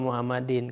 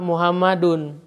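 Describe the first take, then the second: First: The word ends with the vowel i plus n. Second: The word ends with the vowel u plus n. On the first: The speaker calls it wrong. "Tidak boleh kita membacanya" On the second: The speaker calls it right. "maka kita harus membacanya dhammah"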